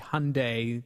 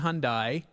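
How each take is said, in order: First: The ending rhymes with 'Sunday'. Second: The ending does not rhyme with 'Sunday'. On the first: This is how the company wants it said. The speaker calls it right. "it's actually Hyundai. They want it pronounced with like Hyundai Sunday" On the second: This is how it is said in England. The speaker calls it wrong. "that's how I pronounced it when I was in England"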